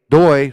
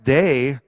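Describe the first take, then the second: First: The name is said with an 'oy' vowel. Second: The name is said with an 'ay' vowel. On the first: The speaker calls it right. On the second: The speaker calls it wrong.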